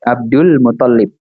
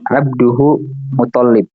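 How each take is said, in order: First: The first word ends in an l sound. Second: The first word ends in hu, with no l. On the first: The speaker calls it right. "jangan lupa kasih gak ya, jatah alif lam di situ" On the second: The speaker calls it wrong. "mana jatah alif lamnya"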